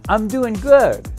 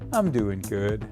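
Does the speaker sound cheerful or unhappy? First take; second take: cheerful; unhappy. First: It is said in a cheerful, upbeat tone. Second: It is said in a flat, unhappy tone. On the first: The speaker is genuinely fine. "he will come back and say, that's great, Edward" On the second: The speaker is not really fine. "you don't sound like you're doing so good"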